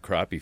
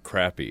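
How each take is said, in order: First: It is said with a non-Southern pronunciation. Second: It is said with a Southern pronunciation.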